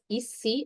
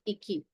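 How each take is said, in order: First: The middle consonant is an s sound. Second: The middle consonant is a k sound. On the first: The speaker calls it right. "we said this as ici" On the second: The speaker calls it wrong. "and not iki"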